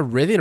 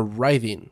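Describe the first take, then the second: First: "writhing" with a short i, as in "with"; short-i pronunciation. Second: "writhing" with a long i, as in "write"; long-i pronunciation. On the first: Gamer puzzling over a word in the notes, "writhing" with short i. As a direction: say "writhing" with the first vowel of "rid". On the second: Gamer offering the other reading of a new word, "writhing" with long i. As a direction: say "writhing" to rhyme with "tithing". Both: Shown as a demonstration. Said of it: "Is that writhing or writhing?".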